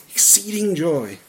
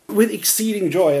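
First: Laughing quote. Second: Raised, louder, savouring "With exceeding joy"; joyful quote. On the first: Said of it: "he's lived off that verse". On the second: Preacher quoting his dad's favourite verse with raised joyful emphasis. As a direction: relish the verse his dad loves, "With exceeding joy" ringing out. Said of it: "my dad said he, oh, he's lived off that verse". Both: Retold or imitated.

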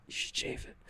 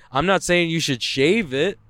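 First: A sly whispered aside slipped in under the breath. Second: Said in the usual way. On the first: Acted. Joking about armpit hair, whispered sneaky aside. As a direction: murmur it as a cheeky secret.

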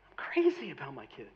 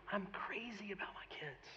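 First: Said in the usual way. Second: Hushed whisper to the congregation; whispered like a heartfelt confession; confiding whisper. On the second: Real, not acted. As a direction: drop right down and whisper it. Preacher confides love for his kids.

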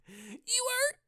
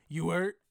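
First: Very high squeaky rising question; squeaky mock question. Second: Said in the usual way. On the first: Podcaster squeaks a mock question way up high. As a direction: squeak it like a cartoon.

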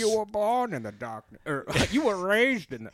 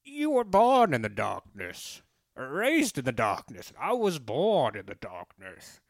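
First: Bane voice. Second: Slow masked villain, more like Darth Vader; bad Bane impression. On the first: Acted. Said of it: "You sound like somebody". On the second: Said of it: "it's almost like, uh, Darth Vader".

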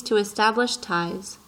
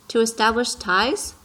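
First: Said in the usual way. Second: "To establish ties?" with TIES rising sharply at the end; echoed question. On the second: A narrator's reading. Little prince asks the fox back, questioning rise on "ties". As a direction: repeat "To establish ties?" as a question, lifting high on "ties".

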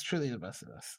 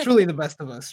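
First: Softer, dropped back down; quiet repeat. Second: Booming, grand praise; loud mock praise. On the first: Pretend. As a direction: say it again under your breath. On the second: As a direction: proclaim it like a toast. Over-the-top praise of guest.

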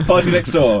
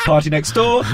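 First: Bingo caller laughing. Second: Bingo caller. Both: Retold or imitated. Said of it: "like a bingo caller".

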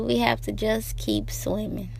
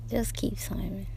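First: Said in the usual way. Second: Soft unvoiced whisper; a tender whispered reminder. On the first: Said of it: "plain then whispered". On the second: Real, not acted. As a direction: breathe the words to yourself. Whispered repeat of the line.

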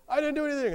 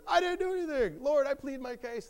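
First: High, loud mock protest; protesting innocence. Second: Very high, loud mock wail of innocence; desperate protest. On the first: Job answers his accusing friends, high loud protest. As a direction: protest loudly as the wronged man. Job's first protest in retold argument. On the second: Job insists to friends and Lord, high desperate protest. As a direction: plead the case at the top of the range. Job's escalated protest in retold argument.

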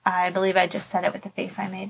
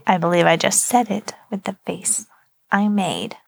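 First: Said softly, not into the microphone; quiet, away from mic. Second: Spoken up, last words whispered; louder into the mic. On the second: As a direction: repeat it louder, trail into a whisper. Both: Real, not acted. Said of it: "You also have to talk into the microphone".

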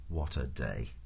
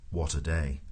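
First: Low, soft resignation; weary lament. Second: Said in the usual way. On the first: A narrator's reading. Prosser lies miserable in the mud, weary and low. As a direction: let it sink, low and soft.

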